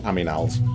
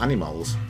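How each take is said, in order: First: The m sound comes before the n sound. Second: The n sound comes before the m sound. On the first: The speaker calls it wrong. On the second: The speaker calls it right.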